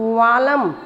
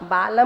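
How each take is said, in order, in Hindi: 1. यह शब्द v ध्वनि से शुरू होता है। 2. यह शब्द b ध्वनि से शुरू होता है। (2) "बालम नहीं"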